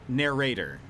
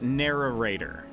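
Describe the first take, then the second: First: No extra syllable sounds in the middle. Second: An extra 'ar' syllable sounds in the middle. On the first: The speaker calls it right. "But I'm learning now that it's narrator" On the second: The speaker calls it wrong. "I say it narrator, as if there is an additional A R in there somewhere, or R A"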